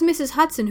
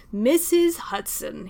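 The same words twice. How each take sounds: First: Said in the usual way. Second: Slow, drawn-out gushing greeting; overdone cheerful welcome at the door. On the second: Acted. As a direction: lay the warmth on thick. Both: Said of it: "he practically gushed".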